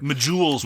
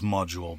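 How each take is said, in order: First: The word is said with a jokey, distorted pronunciation. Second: The word is said with its ordinary pronunciation. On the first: "I just say it in a funny way" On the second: "The word is module"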